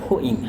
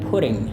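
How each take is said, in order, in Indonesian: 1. T-nya dihilangkan, dalam aksen British. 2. T-nya diucapkan seperti d lembut. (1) "dia T-nya tidak dilafalkan" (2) "kalau aksen Amerika dia bilang putting"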